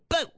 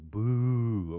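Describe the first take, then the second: First: The vowel is kept short. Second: The vowel is drawn out long.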